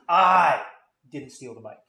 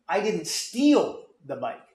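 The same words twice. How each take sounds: First: The word "I" carries the strongest stress. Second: The word "steal" carries the strongest stress. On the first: Someone else took the bike. "it was stolen, and I accept that, but I didn't do it" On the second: The bike was taken but only borrowed. "I borrowed it, but I didn't steal"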